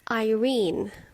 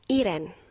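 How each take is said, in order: First: The name is said like 'eye-REEN'. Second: The name is said like 'EE-ren'. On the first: The speaker calls it right. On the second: The speaker calls it wrong.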